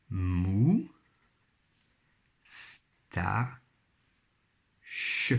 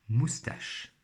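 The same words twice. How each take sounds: First: "mou, sta, ch" in three beats with long pauses; syllable by syllable. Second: Said in the usual way. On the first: Shown as a demonstration. Teacher rebuilding moustache from three syllables, syllable by syllable. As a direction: isolate "mou", "sta" and "ch", one at a time. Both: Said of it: "à chaque fois trois syllabes".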